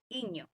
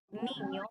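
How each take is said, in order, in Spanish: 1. La palabra empieza sin el sonido n. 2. La palabra empieza con el sonido n. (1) "el niño lo dice iño" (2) "decir niño"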